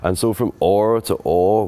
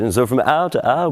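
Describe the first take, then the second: First: It is said in an early modern English accent. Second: It is said in a modern English accent.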